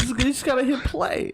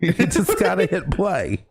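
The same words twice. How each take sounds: First: Much higher, laughing impression; Christopher Walken. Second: Much higher, exaggerated impression; Christopher Walken. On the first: Co-host quoting the film, laughing celebrity impression. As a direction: squeak out the line through laughter. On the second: Host echoing co-host's quote, celebrity impression. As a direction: echo the line in a hammed-up voice. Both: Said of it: "So is Christopher Walken getting laid off?".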